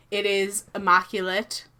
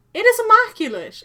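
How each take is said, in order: First: Said in the usual way. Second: Excited. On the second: Real, not acted. Repeats line with emphasis.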